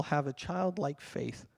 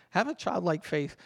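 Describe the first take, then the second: First: Softer and slower, savouring each word; hushed, reverent quote, slowed down; soft, slow scripture quote. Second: Said in the usual way. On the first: Shown as a demonstration. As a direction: read it gently like scripture. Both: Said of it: "it says in the Bible".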